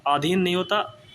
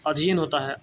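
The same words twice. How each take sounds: First: आधीन said with long aa at the start; आधीन stretched on the first vowel; wrong form said. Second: अधीन said with short a, clearly adh-een; अधीन with short first vowel; correct spelling said. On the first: Teacher to students: wrong आधीन with long aa. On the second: Teacher to students: अधीन said correctly, short a. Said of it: "अधीन नहीं होता बच्चों". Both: Shown as a demonstration.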